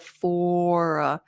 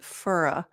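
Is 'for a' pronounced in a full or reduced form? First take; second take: full; reduced. First: The two words are said in full, unreduced. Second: The two words are reduced and run together. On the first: "instead of" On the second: "I did use a more reduced form that Americans use"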